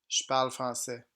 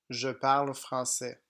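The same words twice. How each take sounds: First: 'Je' is reduced to a short 'sh' sound. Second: 'Je' is said as a full syllable with its vowel. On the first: This is how it is spoken casually. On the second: This is how it is written.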